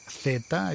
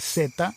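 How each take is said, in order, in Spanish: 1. Se dice con pronunciación de España. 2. Se dice con pronunciación latinoamericana. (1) "en España se dice" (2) "en América se dice"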